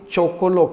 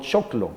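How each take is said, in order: First: The word is said with three syllables. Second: The word is said with two syllables. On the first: It takes less effort to say. "Es más fácil chocolo" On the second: It takes more effort to say. "que no choclo"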